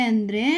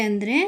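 Both takes have the same delivery.

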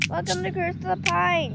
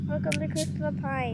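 First: It is yelled loudly. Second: It is said at a normal volume.

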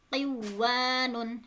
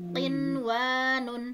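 First: The n sound is merged into the w. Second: The n sound is pronounced clearly before w. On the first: The speaker calls it wrong. "tidak dibaca" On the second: The speaker calls it right. "dibacanya izhar atau jelas"

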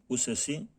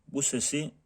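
No difference in how they are said.

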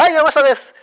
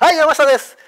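First: It is said in a bright, courteous tone. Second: The same.

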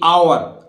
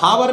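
First: The word starts with a vowel, no h. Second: The word starts with an h sound. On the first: The speaker calls it right. "एच यहां भी नहीं बोलिएगा" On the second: The speaker calls it wrong. "हावर नहीं बोलेगा"

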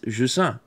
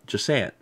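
First: The name is said with a French pronunciation. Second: The name is said with an English pronunciation. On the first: "the name of the game is Je sens" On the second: "but in English you could just call it like Je sens"

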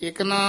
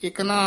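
Both takes have the same delivery.

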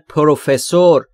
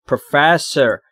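First: The stress is not on the second syllable. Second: The stress is on the second syllable. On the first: The speaker calls it wrong. "خیلی هم میگن پروفسور، این اشتباهه" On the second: The speaker calls it right. "استرس روی F"

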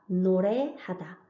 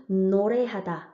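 No difference in how they are said.

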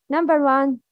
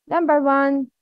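No difference in how they are said.

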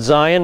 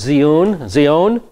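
First: It is said with an English pronunciation. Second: It is said with a Hebrew pronunciation. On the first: "we pronounce it Zion" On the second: "In Hebrew it's Zion"

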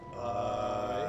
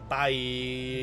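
First: It is said flat and lifeless, dead inside. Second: It is said in a normal, lively tone.

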